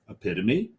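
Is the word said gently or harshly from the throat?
gently. The word is said gently, without straining the throat.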